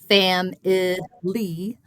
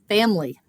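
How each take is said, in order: First: The word is said with three syllables. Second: The word is said with two syllables. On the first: "very few people say family" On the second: "much more likely to say family"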